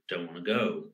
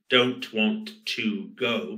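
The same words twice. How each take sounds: First: The words are linked and the function words weakened. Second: Each word is said fully and separately.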